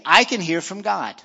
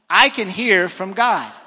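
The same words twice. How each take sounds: First: It is said in a plain, ordinary way. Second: It is said with strong, confident energy. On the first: "Can we say that together? Say" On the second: "Now let's say it with even more confidence"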